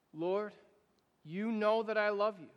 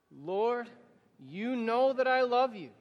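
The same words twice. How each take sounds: First: Said in the usual way. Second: Louder, higher affirmation with the congregation; spoken together, louder. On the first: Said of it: "I'll say it once". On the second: Shown as a demonstration. Pastor leading the congregation's reply, louder. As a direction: declare it aloud with everyone. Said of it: "now you say it with me".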